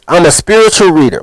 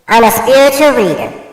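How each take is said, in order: First: It is said in his normal voice. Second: It is said in a put-on voice.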